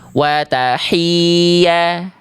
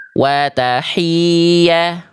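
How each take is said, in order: No difference in how they are said.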